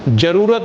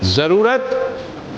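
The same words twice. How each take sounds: First: The word begins with a j sound. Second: The word begins with a z sound. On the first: The speaker calls it wrong. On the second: The speaker calls it right.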